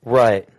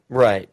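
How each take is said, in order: Both takes have the same delivery.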